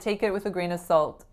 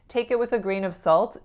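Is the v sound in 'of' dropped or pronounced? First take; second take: dropped; pronounced. First: The v sound in 'of' is dropped. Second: The v sound in 'of' is pronounced. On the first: "I said it again without the V" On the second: "I was trying to put my V in"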